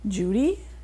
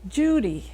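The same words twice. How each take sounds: First: The pitch rises at the end. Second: The pitch falls at the end. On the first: It is a question. The speaker calls it wrong. "they were asking me" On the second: It is a statement. The speaker calls it right. "stand up on your toes and then go down"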